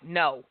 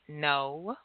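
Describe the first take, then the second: First: It is said harshly and abruptly. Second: It is said calmly and softly.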